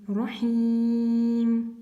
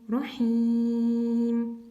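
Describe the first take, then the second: Both takes have the same delivery.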